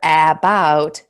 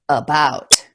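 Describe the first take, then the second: First: The first vowel is a full 'ah' sound. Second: The first vowel is a reduced 'uh' sound. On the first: The speaker calls it wrong. "instead of about or about" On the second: The speaker calls it right. "it's an uh"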